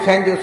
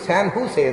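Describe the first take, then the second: First: The second word begins with a J sound. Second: The second word begins with an H sound. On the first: The speaker calls it wrong. "San ಜೋಸ್ San ಜೋಸ್ ಅಂತ ನಾವು" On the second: The speaker calls it right. "San ಹೂಸೆ ಅಂತ ಅದ್ರ ಉಚ್ಚಾರ"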